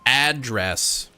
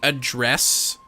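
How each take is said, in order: First: The stress is on the first syllable. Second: The stress is on the second syllable. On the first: "or do you emphasize ah?" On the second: "Do you emphasize dress"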